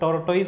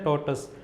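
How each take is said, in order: First: The word ends with a 'toyz' sound. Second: The word ends with a 'tus' sound. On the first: The speaker calls it wrong. "टोर्टोइज नहीं बोलते उसको" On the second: The speaker calls it right. "क्या pronounce करते हैं, टोटस"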